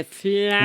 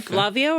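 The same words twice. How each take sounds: First: Flavio with a long, stretched "Flaaa"; drawn-out L. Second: Said in the usual way. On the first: Shown as a demonstration. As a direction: hold the start of Flavio before finishing it. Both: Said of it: "when you really draw out that L".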